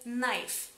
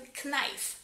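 First: The word begins directly with an N sound. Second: The word begins with an audible K sound. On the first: The speaker calls it right. "la K en esta palabra es muda y tenéis que pronunciar esta palabra como knife, como si no hubiese la K" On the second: The speaker calls it wrong. "muchos de mis alumnos pronuncian esta palabra incorrectamente, la pronuncian knife, porque hay la que al principio"

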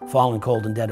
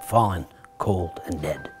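First: It is said plainly, without extra stress. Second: It is said with heavy, dramatic word stress.

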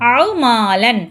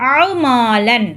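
The two takes are said the same way.

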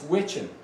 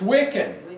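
First: The middle consonant is a ch sound. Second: The middle consonant is a hard k sound. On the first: The speaker calls it right. "It's witchin. They actually call it witchin" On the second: The speaker calls it wrong. "Wiccan is not the right way to say that"

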